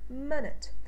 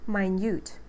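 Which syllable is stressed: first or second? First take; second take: first; second. First: The stress is on the first syllable. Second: The stress is on the second syllable. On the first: It is the noun meaning a unit of time. "Minute is a noun, and we should pronounce this word with a uh sound, like in sit" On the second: It is the adjective meaning very small. "which implies that we have a second syllable stress"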